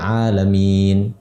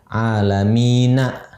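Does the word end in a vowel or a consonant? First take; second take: consonant; vowel. First: The word ends on a consonant, no vowel. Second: The word ends with a short final vowel. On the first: The reciter stops on the word. "bukan asli sukun tapi dibuat sukun" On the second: This is the full form without stopping. "Aslinya alamina"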